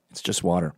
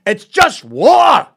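First: Said in the usual way. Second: Very loud, high, drawn-out Glaswegian; Glasgow accent. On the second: Retold or imitated. Glasgow local scolding a man about rain, bellowed Glaswegian. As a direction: bellow it slowly like a mock-outraged Glaswegian. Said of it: "the most gentle it gets in Glasgow".

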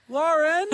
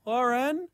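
First: Woman calling again. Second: Imitating a woman calling, higher; a higher, questioning call of the name. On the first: Retold or imitated. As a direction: repeat the call, a little stronger. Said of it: "Just like that". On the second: Retelling a stranger calling the housemate's name, imitated. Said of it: "I just hear a woman's voice go".

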